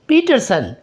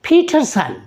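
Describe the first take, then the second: First: The p and t are said without a puff of air. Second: The p and t are said with a puff of air. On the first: The speaker calls it wrong. "No" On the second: The speaker calls it right. "पी को फ की आवाज़ से बोलेगा"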